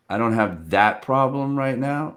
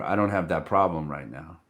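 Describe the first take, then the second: First: "problem" lifted with a rise at the end; an easy brush-off, "problem" rising; casual no that leaves the door open; light open tone. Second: Lower, "don't" stressed and rising; a flat refusal leaning on "don't"; firm closed no. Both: Shown as a demonstration. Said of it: "It's two different things".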